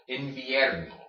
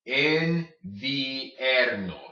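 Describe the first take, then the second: First: Said in the usual way. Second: Invierno very slowly, een-vee-EHR-no; slow, separated I and E in invierno; both vowels sounded. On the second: Shown as a demonstration. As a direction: stretch every syllable of invierno. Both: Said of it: "you pronounce both vowels".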